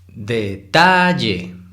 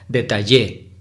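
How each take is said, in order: First: The stress is on the middle syllable. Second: The stress is on the last syllable. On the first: The speaker calls it right. "hay que exagerarlo un poco para identificarlo" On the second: The speaker calls it wrong. "si fuera en la última sílaba en Y, sería"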